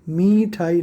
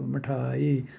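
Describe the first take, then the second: First: The first vowel is long and stressed. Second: The first vowel is short and light. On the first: The speaker calls it wrong. "मीठाई नहीं बोला जाएगा इसको" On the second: The speaker calls it right. "मिठाई हल्का सा बोलना पड़ेगा"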